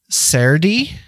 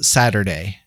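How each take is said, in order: First: It has an older, rural East Coast pronunciation. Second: It has the usual standard pronunciation. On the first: "they'll say Saturday" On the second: "instead of Saturday"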